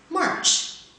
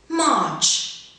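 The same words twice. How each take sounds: First: It is said in an American accent. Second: It is said in a British accent. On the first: "second in general American" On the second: "first in received pronunciation"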